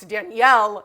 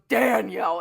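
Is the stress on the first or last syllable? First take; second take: last; first. First: The stress is on the last syllable. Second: The stress is on the first syllable. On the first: The speaker calls it right. "the emphasis is supposed to be on the yell. It's Danielle" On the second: The speaker calls it wrong. "puts the emphasis on the Dan"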